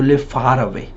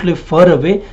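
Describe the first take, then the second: First: "far" with a wide "aah"; clear, open "far away"; correct open A. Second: "far" pronounced as "fur"; wrong closed vowel. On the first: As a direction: open the jaw fully on "far". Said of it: "opening the mouth with the sounds of A". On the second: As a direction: barely open the mouth on "far", giving "fur away". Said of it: "You don't". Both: Shown as a demonstration.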